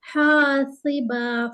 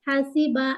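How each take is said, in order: First: हासिबा with हा held two beats, slow; slow even हासिबा, long alif; correct slow reading. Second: हासिबा said quickly with a clipped हा; wrong rushed reading. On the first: Teacher showing the right way, slow. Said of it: "जल्दी नहीं पढ़ेंगे". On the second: Teacher showing the mistake, rushed. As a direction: rush हासिबा, short vowels. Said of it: "हासिबा ऐसे नहीं करेंगे". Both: Shown as a demonstration.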